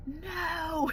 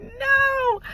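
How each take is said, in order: First: Soft, high "No." said under the breath, barely voiced; hushed refusal. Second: Squealed refusal. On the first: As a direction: breathe out a small, high "No." in disbelief. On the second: Retold or imitated. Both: Told more cavities, frustrated.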